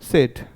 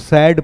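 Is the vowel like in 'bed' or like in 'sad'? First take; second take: bed; sad. First: The vowel is mid, as in 'bed'. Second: The vowel is open, as in 'sad'. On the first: The speaker calls it right. "सैड नहीं बल्कि इसको पढ़ना चाहिए सेड" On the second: The speaker calls it wrong. "हम इसको सैड पढ़ते हैं"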